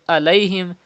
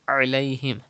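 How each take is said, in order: First: The word starts with a plain glottal stop. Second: The word starts with a deep throat sound. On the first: The speaker calls it wrong. "that means you are reading Hamza" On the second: The speaker calls it right. "pronounce Ain from the middle part"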